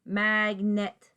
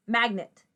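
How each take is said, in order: First: "Magnet" drawn out as mag, net; sounded-out syllables. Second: Said in the usual way. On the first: Shown as a demonstration. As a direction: say "Magnet" slowly, both syllables given full vowels. Syllables first, then blended word.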